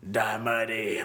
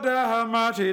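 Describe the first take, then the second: First: It is said more quietly. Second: It is shouted very loudly.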